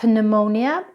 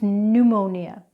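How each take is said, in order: First: The P sound is pronounced. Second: The P sound is silent. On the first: The speaker calls it wrong. "It's not pneumonia" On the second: The speaker calls it right. "it's pneumonia"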